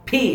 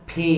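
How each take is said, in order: First: ফি shoved out with a push; over-push the start of ফি. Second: ফি with a soft puff from both lips. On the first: Teacher showing what not to do, pushed P. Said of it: "ধাক্কা দিয়ে এভাবে বলা যাবে না". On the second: Teacher modelling the letter P, soft sound. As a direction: release ফি gently. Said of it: "soft". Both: Shown as a demonstration.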